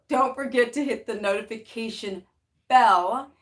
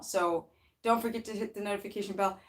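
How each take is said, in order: First: It is said slowly. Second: It is said at normal speed.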